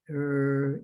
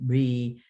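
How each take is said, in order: First: It is sounded out slowly, sound by sound. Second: It is said quickly as one smooth unit. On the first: The reader does not recognize the prefix automatically. The speaker calls it wrong. "not er, e" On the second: The reader recognizes the prefix automatically. The speaker calls it right. "They need to recognize re"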